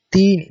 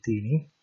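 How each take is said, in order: First: "Tini" said high and loud for students; Pali word modelled. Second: Said in the usual way. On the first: Shown as a demonstration.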